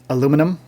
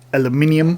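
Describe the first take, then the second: First: It is said the American way, four syllables. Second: It is said the European way, five syllables.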